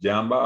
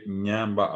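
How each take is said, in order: First: The word begins with a plain y sound. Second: The word begins with a nasal ny sound. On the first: The speaker calls it wrong. "algunos dirán ñande, yamba, apo, pero cualquiera que entiende va a decir ese pronunció mal" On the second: The speaker calls it right. "La pronunciación correcta es ñande, ñamba, apo"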